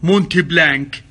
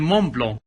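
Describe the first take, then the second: First: The t and final k are pronounced. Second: The t and final k are silent. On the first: The speaker calls it wrong. "كثير من الناس ينطقوها غلط" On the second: The speaker calls it right. "ترى تنطق مون بلون زي الفرنسيين"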